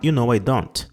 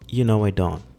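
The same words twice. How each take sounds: First: The final t of don't is clearly pronounced. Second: The final t of don't is left off. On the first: "Você pode falar com o T no final? Pode" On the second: "Sem o T do final"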